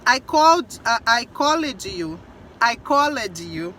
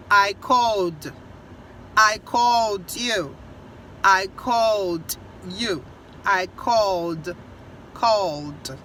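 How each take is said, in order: First: CALLED split in two, "col-led"; common learner mistake. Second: CALLED as one slow syllable, "cold"; correct pronunciation. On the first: Teacher imitating what many students say, called mispronounced as col-led. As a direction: say "called" with a full extra -ed syllable. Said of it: "muita gente fala assim". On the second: Teacher correcting the mistake, called slow in one syllable. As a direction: draw out "called" slowly, closing on a plain d. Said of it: "Então é só D". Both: Shown as a demonstration.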